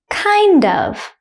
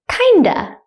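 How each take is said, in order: First: Both words are said fully and separately. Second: The words blend, ending in a short uh.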